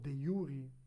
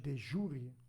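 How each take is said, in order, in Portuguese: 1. A palavra 'jure' começa com um som de 'y'. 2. A palavra 'jure' começa com um som de 'zh'.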